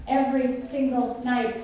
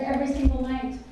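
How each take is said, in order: First: EVERY SINGLE NIGHT drawn out word by word; slow right down on "Every single night"; weighty, deliberate repeat of "Every single night"; slow emphasis. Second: Said in the usual way. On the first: Real, not acted. Repeats phrase slowly for weight.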